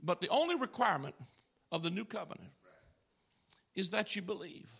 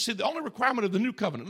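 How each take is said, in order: First: Softer, with pauses between the phrases; preacher finally landing the point, soft and measured; weighty and deliberate. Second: Rushed aside. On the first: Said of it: "And I'm trying to get to this". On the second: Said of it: "listen, this is powerful to me". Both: Shown as a demonstration.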